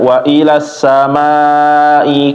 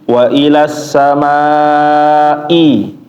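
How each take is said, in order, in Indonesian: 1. Hamzah dalam samaa'i lemah atau dihilangkan. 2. Hamzah dalam samaa'i diucapkan dengan jelas. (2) "hamzahnya Bapak jangan lupa"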